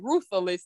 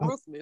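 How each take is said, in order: First: The word is said with an extra sound added. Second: The word is said plainly without an added sound. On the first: This imitates how someone else said it. The speaker calls it wrong. "He added an extra letter in there. He say ruthless" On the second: This is how the word should be said. The speaker calls it right. "not ruthless"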